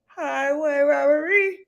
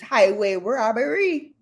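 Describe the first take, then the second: First: It is said in an older woman's put-on accent. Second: It is said in a normal everyday voice.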